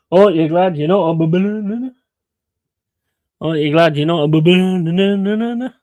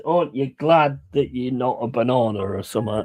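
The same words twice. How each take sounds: First: Higher, louder mock delivery of the punchline, lightly voiced; imitating the lad's punchline. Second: Said in the usual way. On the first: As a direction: repeat it over and over like the character. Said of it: "he just keep going". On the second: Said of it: "the punchline is".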